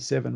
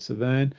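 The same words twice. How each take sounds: First: The name is pronounced the English way. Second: The name is pronounced the local way. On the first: This is how relatives in England say it. "my English relatives pronounce it the Severn" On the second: This is how the speaker has always said it. "I've always called it Severn"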